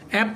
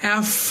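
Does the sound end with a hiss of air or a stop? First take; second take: stop; hiss. First: It ends with a closed lip stop. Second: It ends with a hiss of air. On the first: The speaker calls it wrong. "অ্যাপ না, আগে আমরা অ্যাপ বলতাম" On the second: The speaker calls it right. "এফ হচ্ছে বাতাস বের হবে"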